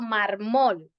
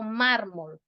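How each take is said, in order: First: The stress is on the last syllable. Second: The stress is on the first syllable. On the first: The speaker calls it wrong. "yo no estoy diciendo mármol" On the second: The speaker calls it right. "tiene el acento en la penúltima sílaba"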